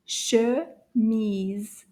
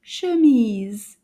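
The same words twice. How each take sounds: First: "Chemise" drawn out with a gap between syllables; slow syllables. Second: "Chemise" joined up quickly and louder; a little faster. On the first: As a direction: say "Chemise" slowly, one syllable at a time. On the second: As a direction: run both syllables of "Chemise" together, louder. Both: Shown as a demonstration. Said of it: "say it again a little faster".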